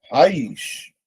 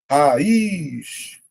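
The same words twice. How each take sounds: First: Said in the usual way. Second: RAIZ drawn out as ra-iiz, long I; syllable by syllable. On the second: Shown as a demonstration. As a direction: stretch RAIZ to show the hiatus. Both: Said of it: "Regra dos hiatos".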